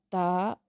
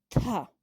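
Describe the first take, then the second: First: The consonant is plain, with no breath. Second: The consonant has a puff of breath. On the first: "Son simples o normales porque no tienen ninguna variación en la pronunciación" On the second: "Aspiradas porque está acompañado por la letra H"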